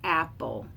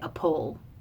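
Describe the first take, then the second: First: The stress is on the first syllable. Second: The stress is on the second syllable. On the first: The speaker calls it right. "the word apple is a trochee" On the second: The speaker calls it wrong. "We don't say a pole"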